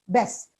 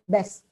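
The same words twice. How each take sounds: First: The vowel sounds like the 'e' in best. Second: The same.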